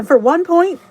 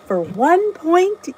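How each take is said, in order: First: Emphatic. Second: Slow, higher, ending on a rise; to the viewers, repeating the points playfully and slowly; slow sing-song. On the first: Calling out the Weight Watchers points. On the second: Stretched out, ending on a lift. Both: Real, not acted.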